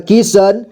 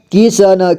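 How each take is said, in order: First: Said in the usual way. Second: किशन as कि-श-न; syllable by syllable. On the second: Shown as a demonstration. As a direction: sound out किशन in three parts. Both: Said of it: "एक ही बार में पढ़ेंगे".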